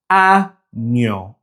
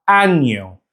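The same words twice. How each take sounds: First: Año broken as a, nyo with a gap; syllable by syllable. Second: Said in the usual way. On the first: Shown as a demonstration. Teacher showing Spanish words with ñ, syllable by syllable. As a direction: say año in two slow pieces, ñ starting the second. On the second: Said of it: "other Spanish words containing the ñ".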